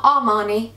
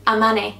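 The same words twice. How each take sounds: First: Armani said as ah-MAH-nee, rejected take; wrong pronunciation. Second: Armani said as uh-MAN-ee, the right take; corrected pronunciation. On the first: Correcting herself on the brand name, wrong Armani first. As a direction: Armani with a broad ah in the middle. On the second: Correcting herself on the brand name, right Armani. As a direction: Armani with a short a in the middle. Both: Shown as a demonstration. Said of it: "not Armani".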